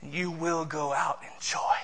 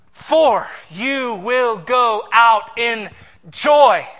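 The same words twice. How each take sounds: First: Soft promise. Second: For you will go out in joy, louder and very slow; slow, building loud declaration; emphatic proclamation. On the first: Quiet reading of the promise. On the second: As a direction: stretch it out and swell to a loud joy. Re-reading the promise with force. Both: Acted.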